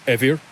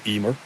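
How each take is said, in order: First: The middle consonant is a V sound. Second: The middle consonant is an M sound. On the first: This is the older form of the name. "the M is pronounced like a V in the middle of a word" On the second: This is how the name is said today. "we pronounce it today Emer"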